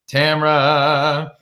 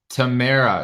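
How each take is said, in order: First: Tamra said in two syllables, TAM-ra; mispronounced name. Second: Tamara said tuh-MAIR-uh, three syllables; corrected pronunciation. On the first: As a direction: say Tamra as TAM-ruh, no middle vowel. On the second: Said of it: "Is that right?". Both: Real, not acted.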